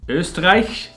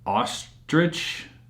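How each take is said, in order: First: The surname is said like the German word Österreich. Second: The surname is said like the English word ostrich. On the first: The speaker calls it right. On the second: The speaker calls it wrong.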